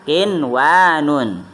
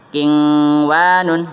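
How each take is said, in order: First: The n sound is pronounced clearly before w. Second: The n sound blends nasally into the w. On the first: The speaker calls it right. "tetapi dibacanya kinwanun, ya, yaitu dibacanya jelas" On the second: The speaker calls it wrong. "bukan dibacanya kingwanun, bukan"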